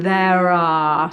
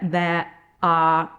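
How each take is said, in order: First: The words join smoothly with a linking R sound. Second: A glottal stop separates the two words. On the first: The speaker calls it right. "eliding there are. So there's a tiny little R sound in there" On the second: The speaker calls it wrong. "we don't get there are and a glottal on the word are"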